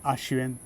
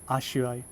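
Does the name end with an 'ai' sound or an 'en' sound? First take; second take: en; ai. First: The name ends with an 'en' sound. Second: The name ends with an 'ai' sound. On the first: The speaker calls it wrong. "not Ashuen" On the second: The speaker calls it right. "is pronounced as Ashuai"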